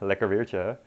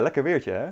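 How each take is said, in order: First: It sounds mocking and ironic. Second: It sounds sincere and pleased. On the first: The weather is actually not very nice. "and like sarcastically" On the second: The weather really is nice. "you can like genuinely say"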